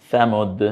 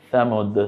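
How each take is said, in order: The two takes are said the same way.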